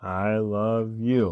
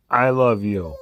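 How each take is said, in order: First: Softer, slow mumbled I love you; mumbling. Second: Crying I love you; mock crying. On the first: Pretend. Voicing the dog's mumbled reply, softer. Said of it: "Come on, you're mumbling". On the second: Voicing the dog's tearful reply, mock crying. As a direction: say it through a mock sob. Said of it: "Say it clear".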